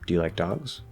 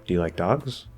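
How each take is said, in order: Both takes have the same delivery.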